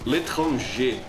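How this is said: It is said with a French accent. "in the French pronunciation"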